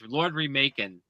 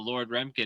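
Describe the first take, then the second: First: The name sounds like the word 'remaking'. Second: The name does not sound like 'remaking'. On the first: The speaker calls it right. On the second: The speaker calls it wrong.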